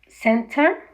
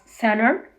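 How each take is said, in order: First: The t after the n is clearly heard. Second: The t after the n is left out.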